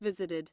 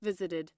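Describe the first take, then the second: The two takes are said the same way.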